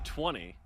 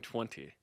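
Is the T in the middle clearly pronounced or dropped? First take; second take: dropped; pronounced. First: The middle T is soft or dropped. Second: The middle T is clearly pronounced. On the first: "Now I'm saying twenty" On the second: "and you're saying twenty"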